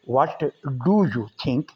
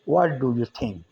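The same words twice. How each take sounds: First: The t of 'what' is clearly pronounced. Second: The t of 'what' is dropped and blended. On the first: The speaker calls it wrong. "हम यूँ नहीं कहते" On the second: The speaker calls it right. "व्हाट का टी हम silent कर देते हैं"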